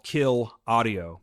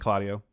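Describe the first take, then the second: First: It is said slowly, as two words. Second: It is said fast, run together.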